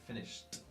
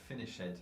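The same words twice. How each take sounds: First: The ending is a plain final sound, no extra syllable. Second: The ending is said as an added extra syllable. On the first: The speaker calls it right. "So finished" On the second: The speaker calls it wrong. "and not finished"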